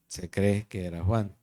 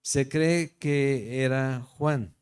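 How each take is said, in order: First: Said in the usual way. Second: Se cree que era Juan drawn out slowly, each word weighted; slow emphatic. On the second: Shown as a demonstration. Preacher to his listeners, slow and weighty. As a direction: lean on cree, slowly and deliberately.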